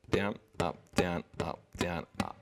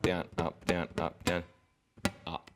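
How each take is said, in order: First: DOWN, UP evenly repeated right through the last "up"; continuous count. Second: "down, up, down, up, down", long gap, then a late UP; delayed last note. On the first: Teacher adding a new note, continuous rhythm. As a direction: keep the final "up" in time with every other word. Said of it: "notice that the rhythm's continuous". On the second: Teacher showing the wrong timing, last note late. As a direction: hold back the final "up" after a run of even words. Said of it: "It's not like an hour later". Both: Shown as a demonstration.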